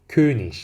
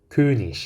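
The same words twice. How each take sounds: The two takes are said the same way.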